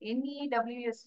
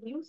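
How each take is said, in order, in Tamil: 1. இது ஒவ்வொரு எழுத்தாகச் சொல்லப்படுகிறது. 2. இது ஒரே வார்த்தையாகச் சொல்லப்படுகிறது. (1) "என்இடபிள்யூஎஸ் பாத்தியா அப்படின்னு கேட்போமா? கேட்க மாட்டோம்" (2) "இன்னைக்கு நியூஸ் நீ பாத்தியா"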